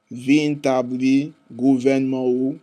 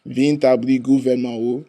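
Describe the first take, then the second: First: The phrase is read slowly. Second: The phrase is read at normal speed. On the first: "one time slow" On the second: "we reading this at regular speed"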